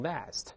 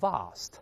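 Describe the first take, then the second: First: The word is said in an American accent. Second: The word is said in a British accent. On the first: "美式发音把r 变成a 读成vast" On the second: "在英式发音中读成vast"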